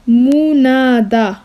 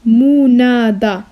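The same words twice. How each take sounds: The two takes are said the same way.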